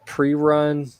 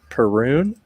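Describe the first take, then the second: First: The name begins with the sound 'pre'. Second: The name begins with the sound 'per'. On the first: "I said pre-run" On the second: "P E R U N, per"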